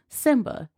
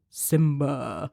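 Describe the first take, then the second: First: It is said in an ordinary speaking voice. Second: It is said in a deep, booming put-on voice. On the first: The speaker calls it wrong. "clearly I didn't do it with the right voice" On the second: The speaker calls it right. "in my like James Earl Jones Mufasa voice"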